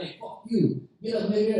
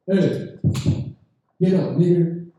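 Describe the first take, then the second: First: A bit higher, tough-guy act in a thin voice; high-pitched drunk. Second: Put-on loud barking order from a drunk; mock drunk shout. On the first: Retold or imitated. Drunk Russian insulting the comic in a thin high voice. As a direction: try to sound hard but come out high. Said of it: "his voice was so high pitched". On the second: Drunk Russian guy yelling at the comic to get up. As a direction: bark it at him across the table.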